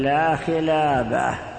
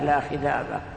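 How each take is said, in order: First: The second word has a clear l sound. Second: The second word has a lisped dh sound. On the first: "فقل لا خلابة" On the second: "اللكنة التي في لسانه"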